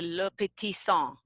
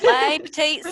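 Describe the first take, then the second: First: The name is said with a French pronunciation. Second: The name is said with an American pronunciation. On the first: This is how French speakers say it. "I think the French pronunciation is actually" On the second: This makes the name easy for listeners to spell. "So I say it the American way so people can spell it"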